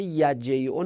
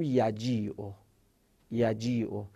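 First: یجیعو with an "ey" glide in the middle; wrong short reading. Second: یجیعو with a stretched "ii" in the middle; drawn-out long i. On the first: Teacher shows students the reading to avoid, یجیعو as "yajey-o". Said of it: "یجیعو نباید بخونیم". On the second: Teacher models the correct stretched reading, یجیعو as "yajii-o". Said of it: "حالت کشیده باید بخونیم". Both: Shown as a demonstration.

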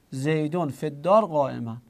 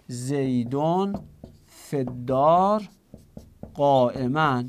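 First: Said in the usual way. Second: Teacher reading زیدون فی الدار قائماً slowly, phrase by phrase; slow with pauses. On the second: Shown as a demonstration. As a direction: pause after زیدون, then فی الدار slow and drawn, قائماً set apart.

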